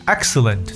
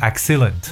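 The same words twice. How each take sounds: First: The stress is on the first syllable. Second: The stress is on a later syllable. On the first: The speaker calls it right. "它的重音在前" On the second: The speaker calls it wrong. "很多同学会把这个词读成excellent"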